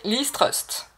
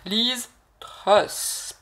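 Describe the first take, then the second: First: The surname ends with a t sound. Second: The surname ends with an s sound. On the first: The speaker calls it wrong. "non pas Trust" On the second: The speaker calls it right. "Truss, Truss"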